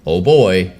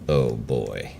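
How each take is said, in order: First: Mickey says it in a cheerful, happy tone. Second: Mickey says it in a stern, menacing tone.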